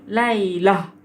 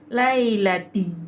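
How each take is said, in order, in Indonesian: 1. Kata itu berakhir dengan bunyi h. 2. Kata itu berakhir dengan bunyi t. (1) "Kalau berhenti" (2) "Kalau sambung"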